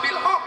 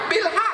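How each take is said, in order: First: The last word has a rounded 'o' vowel. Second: The last word has an open 'a' vowel. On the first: The speaker calls it wrong. "bukan watawasau bil hok" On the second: The speaker calls it right. "Watawasau bil bil hak"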